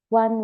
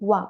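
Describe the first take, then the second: First: The word ends with a clear n sound. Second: The word ends in a vowel, without n. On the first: This follows the written form. The speaker calls it wrong. "You have to write one" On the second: This is how native speakers say it. The speaker calls it right. "wa without N"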